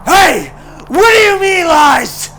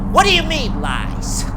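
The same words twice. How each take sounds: First: High, very loud furious repeat; yelling. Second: Rising, louder indignant question; upset. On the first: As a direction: shout it at his back. Joker repeats, now yelling. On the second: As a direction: demand an answer, offended. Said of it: "Joker gets upset". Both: A narrator's reading.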